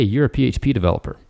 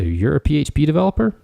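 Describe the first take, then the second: First: The voice falls at the end, confident and direct. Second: The voice rises at the end like a question. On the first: The speaker affirms and encourages that they are one. The speaker calls it right. "the other one was more confident" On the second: The speaker doubts they are really a PHP developer. The speaker calls it wrong. "the tone kind of went up in a questioning tone"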